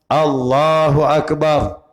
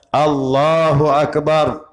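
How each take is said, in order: The two takes are said the same way.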